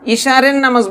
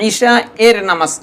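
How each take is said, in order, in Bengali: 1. একটা বাড়তি র আওয়াজ স্বরবর্ণ আর শেষ অংশকে জোড়া দেয়। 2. স্বরবর্ণ সরাসরি শেষ অংশে গিয়ে মেশে। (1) "ঈশারের নামাজ বলবে না"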